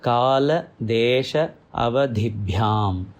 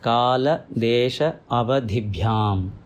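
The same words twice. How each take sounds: No difference in how they are said.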